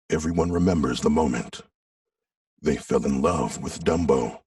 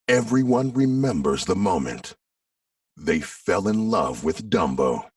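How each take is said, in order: First: It is read flat, dark and mysterious. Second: It is read in a bright, lively way.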